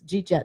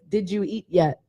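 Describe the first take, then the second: First: The words are squeezed together into short syllables. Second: Each word is pronounced separately and fully. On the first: "we just form everything together" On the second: "there's a saying like"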